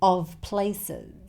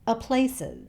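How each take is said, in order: First: The word before places ends in a v sound. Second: Only a weak schwa comes before places. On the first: "it's pronounced with a V sound" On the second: "He doesn't make the v sound at all. He just says the schwa sound"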